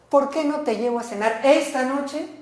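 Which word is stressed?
esta noche. The emphasis falls on the words esta noche. It should be tonight, not tomorrow night. "hoy, no mañana por la noche, hoy"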